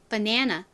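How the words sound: It is said with American vowels and reduced syllables. "미국 사람들은요. 이거를 어떻게 발음하냐면 banana"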